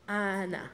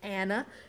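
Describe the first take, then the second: First: The first vowel is an open ah sound. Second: The first vowel is a reduced schwa sound. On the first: This is how the speaker's own name is said. "yung A na sound is A, right? And then na" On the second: This is how the name is usually said by others. "schwa sound"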